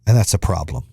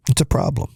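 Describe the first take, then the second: First: Said in the usual way. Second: Breathy whisper, no voice; whispering it back to yourself; whispered repeat. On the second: Shown as a demonstration. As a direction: drop to a whisper for the echo.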